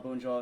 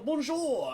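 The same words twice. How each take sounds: First: It is said in his normal voice. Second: It is said in an extravagant put-on voice.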